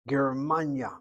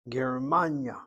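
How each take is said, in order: The two takes are said the same way.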